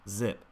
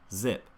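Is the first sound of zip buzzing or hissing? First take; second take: buzzing; buzzing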